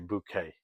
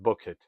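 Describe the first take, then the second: First: The name sounds like the French-style bouquet. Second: The name sounds like the ordinary word bucket.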